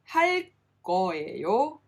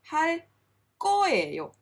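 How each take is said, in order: First: The g sound is plain and single. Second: The g sound is tense and doubled. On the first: The speaker calls it wrong. "it's not" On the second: The speaker calls it right. "but ... it becomes a double sound"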